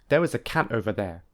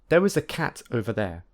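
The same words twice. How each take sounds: First: The t in cat is a glottal stop. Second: The t in cat is a clear t. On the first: "and secondly use the glottal plosive" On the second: "I will firstly use t"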